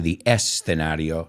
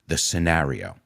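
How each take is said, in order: First: An extra 'e' sound comes before 'scenario'. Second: The word starts directly with the 's' sound. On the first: The speaker calls it wrong. "We don't say it with an e in there. We don't say the escenario" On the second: The speaker calls it right. "sino the the scenario"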